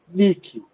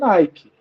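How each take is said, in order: First: It is said as read in Portuguese. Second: It is said with an English pronunciation. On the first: This is how it would be read from the spelling locally. "se eu fosse ler em português, ... ela seria Nike" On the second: This is how the brand is actually said. "ela não seria Nike"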